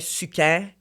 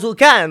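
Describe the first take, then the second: First: It is said with a French accent. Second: It is said with a Spanish accent. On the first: "French people"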